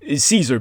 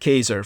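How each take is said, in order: First: The name is said in its anglicized form. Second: The name is said in its original form.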